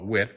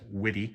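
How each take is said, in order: First: The name is said as one syllable. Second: The name is said as two syllables. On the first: The speaker calls it wrong. "I always used to call it Wit" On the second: The speaker calls it right. "the actual proper pronunciation pronunciation is"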